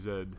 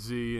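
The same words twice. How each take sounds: First: The letter is said the local way. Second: The letter is said the American way. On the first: "here technically it's supposed to be Z" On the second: "All the states it's it's Z"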